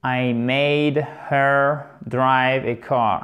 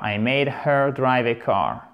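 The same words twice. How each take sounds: First: Slow, careful English demo; unhurried model reading; slow model sentence. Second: Said in the usual way. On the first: Shown as a demonstration. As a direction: spell it out slowly for learners. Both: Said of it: "la phrase en anglais".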